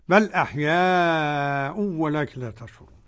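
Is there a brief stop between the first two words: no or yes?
no. The first two words run together without stopping.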